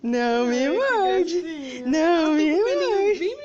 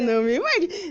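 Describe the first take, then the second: First: Drawn out, half laughing; slow pleading. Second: Said in the usual way. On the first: Acted. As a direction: stretch it out slowly to the pet. Repeated slowly to biting pet.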